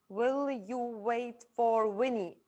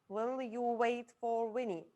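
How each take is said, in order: First: It is said at a normal pace. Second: It is said at a faster pace.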